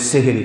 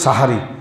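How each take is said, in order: First: The word begins with 'se' and has 'e' vowels. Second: The word begins with 'sa' and has 'a' vowels. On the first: This is the everyday village form. The speaker calls it wrong. "যেটা আমরা গ্রামের ভাষাতে বলি সেহেরি" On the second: This is the original form. The speaker calls it right. "Original উচ্চারণ হলো সাহারি"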